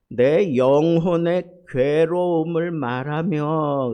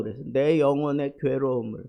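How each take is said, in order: First: Slow, loud, weighty reading of the verse; emphatic scripture quote. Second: Said in the usual way. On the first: Acted. Pastor proclaiming Job's verse to the church, slow and loud. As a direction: proclaim each word of the verse.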